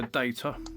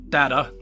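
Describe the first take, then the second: First: It is said with a British accent. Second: It is said with an American accent.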